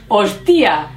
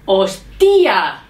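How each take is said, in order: First: "hostia" as the wrong example, stress on the I; mistaken stress on hostia. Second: "hostia" demonstrated with a strong, drawn-out stressed ending; correct stress on hostia. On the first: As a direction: lean on the I in "hostia". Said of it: "Y no decimos". («hostia» mal dicho, con acento en la i) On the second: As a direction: give "hostia" its emphatic local stress. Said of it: "en España decimos". («hostia» pronunciado con énfasis, como ejemplo) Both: Shown as a demonstration.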